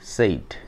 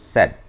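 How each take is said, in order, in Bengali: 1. এখানে স্বরধ্বনিটি লম্বা 'ay' ধ্বনি। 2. এখানে স্বরধ্বনিটি ছোট 'a' ধ্বনি। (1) "আমরা কিন্তু ভুল উচ্চারণ করি" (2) "কিন্তু সেটা হবে না, স্যাড"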